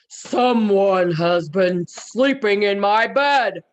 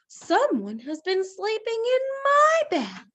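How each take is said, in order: First: It is said in a great big voice. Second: It is said in a middle-sized voice.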